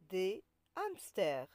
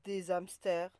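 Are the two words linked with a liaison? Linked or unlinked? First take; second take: unlinked; linked. First: No z sound links des to hamsters. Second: A z sound links des to hamsters. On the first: The speaker calls it right. "On dit" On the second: The speaker calls it wrong. "On ne dit pas"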